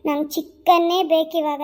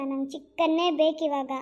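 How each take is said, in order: First: Put-on drunken demand. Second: Said in the usual way. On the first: Drunk husband demanding chicken.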